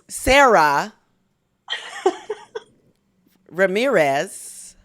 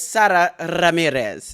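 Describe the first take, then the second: First: The name has English sounds with unrolled R's. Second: The name has Spanish sounds with a rolled R. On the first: "the Anglo-Saxon, ... pronunciation is Sarah Ramirez" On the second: "I think I got it right. / You really rolled that R"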